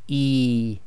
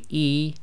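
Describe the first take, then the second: First: The vowel is stretched out long. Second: The vowel is held briefly. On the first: The speaker calls it wrong. "You do not want to overstretch it" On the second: The speaker calls it right. "it's one length long"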